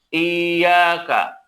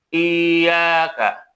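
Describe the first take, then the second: The two takes are said the same way.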